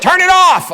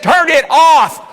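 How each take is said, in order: First: High, loud mock yell; retold yelled order. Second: Drawn-out high, loud mock shout; retold insistent shout. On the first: Wife to husband as the vibrating bed won't stop, mock yell. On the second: Wife orders husband to stop the bed again, drawn-out shout. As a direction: shout it word by word as the fed-up wife.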